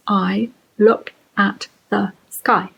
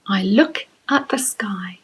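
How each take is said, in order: First: "I look at the sky" slow, every word a separate beat; counted syllable by syllable. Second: Said in the usual way. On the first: Shown as a demonstration. Teacher counting five syllables, "I look at the sky" said word by word. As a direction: pause after each word of "I look at the sky". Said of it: "and that has five syllables". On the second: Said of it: "you can use this opening line".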